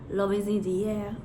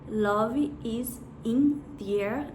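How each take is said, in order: First: The words run together smoothly, linked up. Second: Each word is said separately, without linking. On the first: The speaker calls it right. "a gente vai falar" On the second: The speaker calls it wrong. "Em vez de a gente falar"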